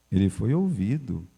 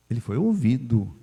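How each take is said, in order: Both takes have the same delivery.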